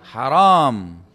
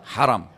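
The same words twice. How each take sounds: First: The second vowel is long. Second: The second vowel is short. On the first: It means forbidden. The speaker calls it wrong. "Jangan Anda bilang haram" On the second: It means honoured or sanctified. The speaker calls it right. "Dibaca langsung ya. Bagaimana bacanya?"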